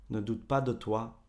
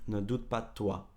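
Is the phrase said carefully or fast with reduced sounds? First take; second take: reduced; reduced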